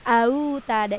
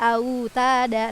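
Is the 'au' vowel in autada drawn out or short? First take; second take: drawn out; short. First: The 'au' vowel is dragged out long. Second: The 'au' vowel is kept short and soft. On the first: The speaker calls it wrong. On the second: The speaker calls it right.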